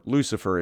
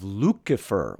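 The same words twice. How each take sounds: First: Said in the usual way. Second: "Lucifer" with a hard k for the c; classical pronunciation. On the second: Shown as a demonstration. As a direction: say "Lucifer" as LOO-ki-fer. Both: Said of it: "or Lucifer, if you will".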